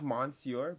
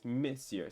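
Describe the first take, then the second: First: "monsieur" said as spelled, mon-see-ur with a nasal "mon"; spelling pronunciation. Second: "monsieur" said as "miss-yur", slower and careful; correct French. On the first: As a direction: read "monsieur" the way it looks, like English. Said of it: "it looks like monsieur". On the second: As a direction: say "monsieur" with a short "mi", no n. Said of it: "but it's monsieur". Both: Shown as a demonstration.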